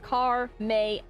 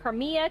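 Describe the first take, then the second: First: The name sounds like 'car' plus 'May'. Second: The name does not end like 'May'. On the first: The speaker calls it right. "like car is in the vehicle, May is in the month" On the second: The speaker calls it wrong. "some people are like"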